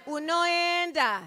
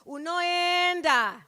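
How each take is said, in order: Both takes have the same delivery.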